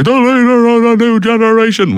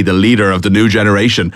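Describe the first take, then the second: First: Much higher, big fake commentator voice; hammed-up wrestling commentator impression; Vince McMahon. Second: Said in the usual way. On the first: Host imitates a nineties wrestling commentator, big high fake voice. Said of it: "with a big kind of fake voice".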